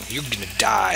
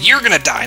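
First: Said in the usual way. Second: Louder, with you're punched hard; insistent correction with the weight on you're; stress on you're. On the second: Shown as a demonstration. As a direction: hit you're to correct the mix-up. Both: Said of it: "No, I said you're gonna die".

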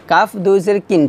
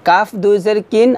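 The two takes are said the same way.

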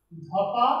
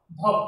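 First: ধপা said with a clear আ after প; added a. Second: Said in the usual way. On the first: Shown as a demonstration. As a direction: add an আ to ধপ: ধপা. (ধপ-এর শেষে আ জুড়ে ধপা) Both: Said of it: "উচ্চারণ করি এভাবে".

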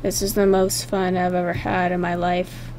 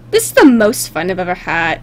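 First: Low, very soft monotone; quiet deadpan. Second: Low-pitched monotone reading; deadpan character line. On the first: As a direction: drop it low and hushed, without enthusiasm. Redoes line more deadpan. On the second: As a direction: read it low, at normal volume. First reading of pony's line. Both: Acted.

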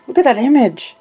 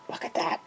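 First: Said in the usual way. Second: Hushed, awed whisper. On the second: Real, not acted. Whispering in awe to viewers over the images. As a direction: breathe it out in wonder.

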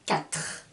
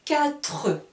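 First: Quatre with a silent final e, katr; the right katr; correct pronunciation. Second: Quatre with a sounded final e, quatreu; the wrong quatreu; wrong pronunciation. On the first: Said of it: "je dis". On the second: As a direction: say quatre with an extra final vowel. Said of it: "je ne dis pas". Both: Shown as a demonstration.

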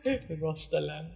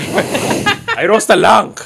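First: Imitating fake Chinese accent. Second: Fake Chinese accent. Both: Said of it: "fake Chinese".

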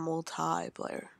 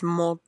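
First: "multiplayer" with a drawn-out TIE in the middle; pronunciation being corrected. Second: "multiplayer" with a stressed TEE in the middle; corrected pronunciation. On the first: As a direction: say "multiplayer" slowly as mul-TIE-player. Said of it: "not multiplayer". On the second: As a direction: say "multiplayer" as mul-TEE-player, breaking it up. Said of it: "He tells me how it's". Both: Retold or imitated.

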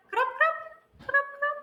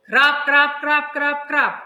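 First: High, quick "крап, крап"; light rain sounds. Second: Loud, pounding "крап, крап"; heavy rain sounds. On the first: Teacher showing weak rain for children to name. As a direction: tap out a light drizzle. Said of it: "це слабкий дощ". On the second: Teacher showing strong rain for children to name. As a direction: hammer out a heavy downpour. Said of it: "це сильний дощ". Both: Shown as a demonstration.

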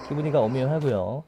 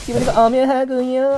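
First: Said in the usual way. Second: 기분이가 punched higher and louder; stress on 기분이가. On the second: Shown as a demonstration. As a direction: hit 기분이가 hard, then 오묘하고요. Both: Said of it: "repeated punchline".

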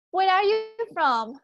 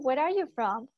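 First: Louder and higher, a clear question for the class; teacher asking loudly. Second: Said in the usual way. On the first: Shown as a demonstration. Teacher calls out the question loudly to her online students. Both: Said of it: "¿De dónde eres tú?".

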